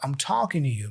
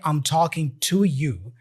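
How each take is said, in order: First: The word 'to' is reduced to a light flap. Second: The word 'to' is said fully and clearly. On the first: "the two here gets reduced to a rara, very light rara" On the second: "He doesn't say"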